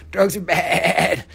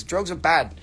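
First: Slow, loud, with a long wobbly BAD; "Drugs are bad", slowed and louder for comic effect; drawn-out mock warning. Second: Said in the usual way. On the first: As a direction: stretch out "bad" like a hammed-up warning. Mock warning to kids, exaggerated repeat.

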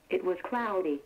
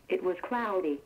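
No difference in how they are said.

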